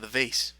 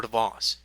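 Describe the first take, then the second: First: "vase" with AY and a final S; American vase pronunciation. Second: "vase" with AH and a final Z; alternative vase pronunciation. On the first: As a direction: say "vase" to rhyme with "face". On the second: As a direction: say "vase" as VAHZ, with a long AH. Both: Shown as a demonstration. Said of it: "however you would like to say it".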